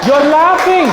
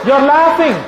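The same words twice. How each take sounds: First: Much higher and louder, laughing it out; teasing the laughing audience, laughing; laughing tease. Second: Much higher and louder, no laugh; calling out the audience, teasing. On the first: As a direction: laugh along at the crowd. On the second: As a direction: point it out to the crowd. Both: Real, not acted.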